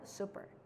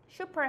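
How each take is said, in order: First: The word is said with English-style sounds. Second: The word is said with Korean-style sounds. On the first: The speaker calls it right. "보통은 super이라고 말하는 거" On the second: The speaker calls it wrong. "super 하지 말고"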